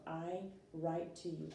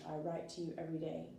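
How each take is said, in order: First: Slow, deliberate example sentence. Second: Fast run-through of the sentence; quick example. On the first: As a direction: lay the words out slowly for the class. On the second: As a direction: rattle it off quickly. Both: Shown as a demonstration. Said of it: "for example".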